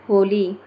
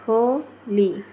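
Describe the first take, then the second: First: Said in the usual way. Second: Holi split as हो, ली with a gap; juncture pause. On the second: Shown as a demonstration. Teacher showing juncture, Holi split by a pause. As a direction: break Holi into two separate words. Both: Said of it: "बीच रिक्त स्थान के कारण".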